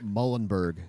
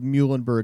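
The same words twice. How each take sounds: First: The first syllable does not sound like 'mule'. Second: The first syllable sounds like 'mule'. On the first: The speaker calls it wrong. "and not Muhlenberg" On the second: The speaker calls it right. "if you know that the team's name is the Mules"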